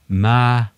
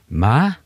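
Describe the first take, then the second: First: It is said with the tone meaning ghost. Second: It is said with the tone meaning mother. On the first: It means ghost. "så betyr det spøkelse" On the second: It means mother. "så betyr det mor"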